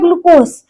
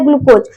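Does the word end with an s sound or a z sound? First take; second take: s sound; z sound. First: The word ends with an s sound. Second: The word ends with a z sound. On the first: This is how the word is written. "यहाँ पे लिखा है ग्लूकोज" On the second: This is how the word is spoken. "लेकिन पढ़ा जाता है ग्लूकोज"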